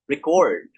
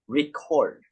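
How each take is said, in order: First: The stress is on the second syllable. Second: The stress is on the first syllable. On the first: It is a verb. "or the second syllable" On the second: It is a noun. "the stress falls on the first syllable"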